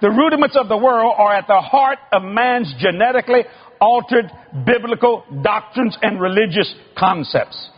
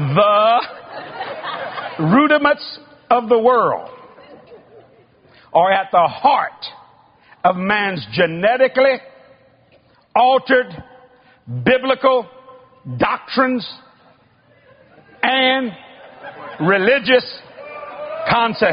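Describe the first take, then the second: First: It is said fast. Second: It is said slowly.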